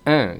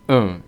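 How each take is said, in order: First: The nasal vowel is said with spread lips. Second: The nasal vowel is said with rounded lips. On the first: "en teoría la UN no es en" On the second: "sino que es un"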